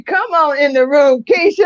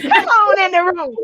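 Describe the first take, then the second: First: High, loud call of come on in the room; loud welcoming call to Keisha; excited church call. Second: Higher, lively come on in the room; host cheering in her own voice; excited call. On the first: Retold or imitated. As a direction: call it out like a cheering congregation. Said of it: "I can just hear her saying that". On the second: Real, not acted. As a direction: echo it with her own fire. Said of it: "host repeats the call herself".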